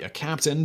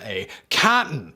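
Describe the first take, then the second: First: The word is pronounced in the ordinary way. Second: The word is pronounced in an odd way. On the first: The wearer does not hold a naval rank. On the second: The title is a playful nickname.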